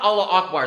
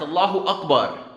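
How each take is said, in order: First: Allah runs straight into Akbar without a vowel. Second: An extra u vowel follows Allah before Akbar. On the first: The speaker calls it wrong. "It's not Allah Akbar" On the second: The speaker calls it right. "it's Allahu Akbar"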